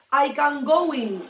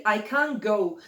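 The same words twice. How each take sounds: First: Slow, louder "I can going", leaning on "going" as the error; wrong form, stressed. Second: Said in the usual way. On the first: Shown as a demonstration. Teacher showing students the wrong form, slow and stressed. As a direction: hold up "I can going" as the mistake, stretching "going". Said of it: "No, porque going no un infinitivo". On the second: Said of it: "Entonces tienes que decir".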